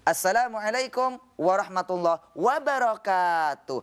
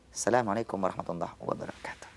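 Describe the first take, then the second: First: It is said in a preacher's sermon tune. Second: It is said as a plain everyday greeting.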